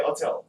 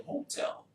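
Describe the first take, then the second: First: HOTEL said without its h, as "otel"; dropped h. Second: HOTEL with a clearly sounded h; h pronounced. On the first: Showing the old way he said it, HOTEL with no h. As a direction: leave the h off HOTEL. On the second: Repeating how they told him to say it, HOTEL with the h sounded. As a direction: start HOTEL on a breathy "ho". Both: Shown as a demonstration. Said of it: "Pronounce it with a ho".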